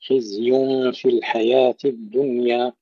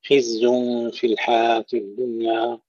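First: خزي في الحياة الدنيا with each ي fully sounded; clearly articulated ya. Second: خزي في الحياة الدنيا with the y of الحياة lost; swallowed ya, wrong. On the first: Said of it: "ننتبه إلى لفظ الياء". (خزي في الحياة الدنيا بإظهار الياء) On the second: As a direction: slur over the ي so الحياة becomes al-haat. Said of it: "يعني يضيعون الياء". (خزي في الحياة الدنيا بتضييع الياء) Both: Shown as a demonstration.

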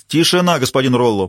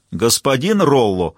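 First: Stern command. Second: Drawn-out, slow stern call; slow warning. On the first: Judge silencing the unruly defendant, stern and loud. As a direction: bark it down from the bench. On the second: Judge warning Rollo again, slow and stern. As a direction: stretch the name as a final warning. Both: A narrator's reading. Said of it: "приказал судья".

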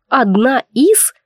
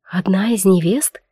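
First: Slow, icy cold repetition. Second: Said in the usual way. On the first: Retold or imitated. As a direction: say it slowly, chillingly. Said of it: "таким ледяным тоном заявляет". (ледяным тоном)

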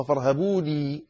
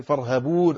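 First: فارهبوني with the final i sounded; the full original form فارهبوني, ending on i. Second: فارهبون ending on a long u with no final i; فارهبون stopped on the u, the written form; without final ya. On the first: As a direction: say فارهبوني with the closing ya heard clearly. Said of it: "أصلها فارهبوني". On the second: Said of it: "لكن المصاحف كلها تكتبها من غير الياء". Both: Shown as a demonstration.

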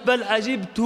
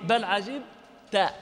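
First: "عجبت" with final -tu; damma on the ta. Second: "عجبت" slowly, with a separated final -ta; fatha on the ta. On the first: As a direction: say "عجبت" as ʿajibtu, ending on u. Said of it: "وهي قراءة حمزة والكسائي". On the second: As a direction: draw out "عجبت" as ʿajib-ta. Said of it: "هذه قراءة نافع". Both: Shown as a demonstration.

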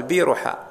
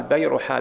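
First: بيرحاء with a long "bee" first syllable; alternative first vowel. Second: بيرحاء with an open "bay" first syllable; fatha on the ba. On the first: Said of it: "ويقال بيرحاء". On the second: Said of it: "بفتح الباء". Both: Shown as a demonstration.

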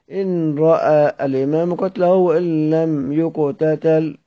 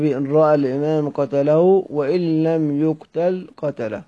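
First: "يقتتل" read with a doubled t sound; slow reading, stumbling into "يقتتل" for "يقتل"; misreading. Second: "يقتل" read with a single t, as yuq-tal; careful rereading with "يقتل" in two syllables; corrected reading. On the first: Real, not acted. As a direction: say "يقتتل" as yuq-ta-tal, drawn out. First reading, later corrected. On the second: Shown as a demonstration. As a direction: say yuq-tal for "يقتل", then close on "قتله". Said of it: "الكلام هكذا".

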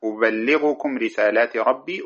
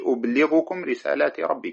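First: "أبلغكم" said uballighukum, doubled L; first reading, doubled L. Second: "أبلغكم" said ublighukum, light single L; no doubling in "أبلغكم"; second reading, single L. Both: Shown as a demonstration. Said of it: "وبهما قرئ".

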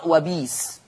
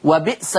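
First: "وبيس" with the hamza replaced by ya. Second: "وبئس" with a clear hamza. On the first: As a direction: soften "وبئس" to "وبيس". (إبدال الهمزة ياء في "وبيس") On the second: ("وبئس" بتحقيق الهمزة) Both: Shown as a demonstration. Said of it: "يقرأ".

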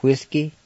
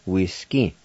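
First: Said in the usual way. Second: Whiskey said wis-kee with a short i; Cherokee word. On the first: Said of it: "Number five". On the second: Shown as a demonstration. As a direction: Cherokee pronunciation demo. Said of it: "almost sounds like the way it is in English".

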